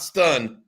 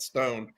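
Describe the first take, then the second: First: The vowel is a short reduced 'uh' sound. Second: The vowel is a full long 'oh' sound. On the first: The speaker calls it wrong. "not Stun" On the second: The speaker calls it right. "but Stone"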